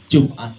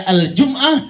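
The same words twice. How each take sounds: First: "Jum'ah" said locally, without the Arabic article; Indonesian pronunciation. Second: "Al-Jum'ah" with the article and glottal catch; Arabic pronunciation. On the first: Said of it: "kita bilangnya". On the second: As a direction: say "Al-Jum'ah" as Arabs do. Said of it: "Orang sono ngomongnya". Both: Shown as a demonstration.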